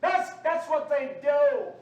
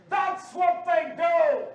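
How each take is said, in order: First: Raised, slow preacher's shout; slow, forceful rebuke; loud denunciation. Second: Very loud, high, drawn-out roar; full-force shout. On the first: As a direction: drive the accusation home loudly. First take of rising denunciation. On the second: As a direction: thunder each word slowly at the congregation. Repeats it louder, higher. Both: Real, not acted.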